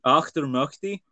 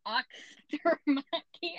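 First: Auchtermuchty with an American ock-ter-muck-ty; American accent. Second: Auchtermuchty very slow, ockst-muck-ty; carefully retry Auchtermuchty very slowly; careful second try. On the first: Shown as a demonstration. Scottish host mimics the guest's American version: Auchtermuchty. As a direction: say Auchtermuchty like an American, flat vowels. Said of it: "say that in an American accent". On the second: Real, not acted. Guest carefully retries the Scottish place name very slowly. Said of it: "the och or the much".

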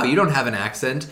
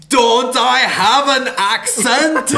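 First: Said in the usual way. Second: High, loud, slow mock vampire accent; Count Chocula. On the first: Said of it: "Miles Teller's like". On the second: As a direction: draw it out in a hammed-up vampire accent. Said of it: "Count Chocula for a second".

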